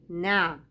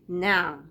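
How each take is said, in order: The two takes are said the same way.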